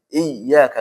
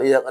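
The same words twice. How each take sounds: First: The doubled 'yy' is pressed with strong emphasis. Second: The doubled 'yy' is said lightly without emphasis. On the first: The speaker calls it right. "maka itu harus ditekankan lagi" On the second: The speaker calls it wrong. "enggak boleh dibaca ... Hilang nabarnya"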